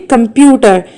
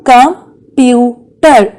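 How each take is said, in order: First: Said in the usual way. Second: "Computer" slowly as com, pu, ter; long pauses between syllables of "Computer"; split into syllables. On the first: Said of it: "How many syllables". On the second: Shown as a demonstration. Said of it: "It is divided into three parts".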